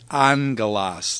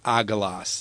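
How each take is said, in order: First: The first gamma sounds like an N. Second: There is no N sound before the G. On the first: The speaker calls it right. "The first one is pronounced like an N, so it's angelos" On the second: The speaker calls it wrong. "not agelos"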